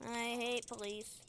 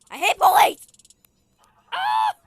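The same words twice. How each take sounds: First: Said in the usual way. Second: High loud shout; higher louder playful rage; mock rage. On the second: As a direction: yell your hatred. Repeats line louder.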